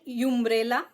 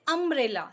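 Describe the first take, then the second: First: It begins with a 'you' sound. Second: It begins with an 'uh' sound. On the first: The speaker calls it wrong. "we are not saying umbrella" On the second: The speaker calls it right. "we say umbrella. So what is the sound? A"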